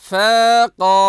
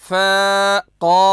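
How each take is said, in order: No difference in how they are said.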